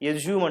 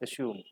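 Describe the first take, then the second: First: The middle consonant is a z sound. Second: The middle consonant is an s sound. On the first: The speaker calls it wrong. "అంటే జా పలుకుతారు. అది జా కాదు" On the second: The speaker calls it right. "ఎస్యూమ్ జా అనేది ఉండదు"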